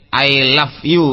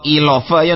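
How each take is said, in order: First: The last word is a full 'you'. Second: The last word is reduced to 'ya'. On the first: The speaker calls it right. "Koyo tunggale I love you" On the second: The speaker calls it wrong. "Utawa I love ya ndak gelem"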